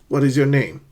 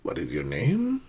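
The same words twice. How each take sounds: First: The voice rises only slightly at the end. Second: The voice rises high at the end. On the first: The speaker calls it right. "make sure that your voice rises slightly, but not too high" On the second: The speaker calls it wrong.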